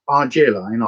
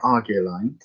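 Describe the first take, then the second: First: The g is soft, like a j. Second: The g is hard, like in go. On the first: "a soft G" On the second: "a hard G"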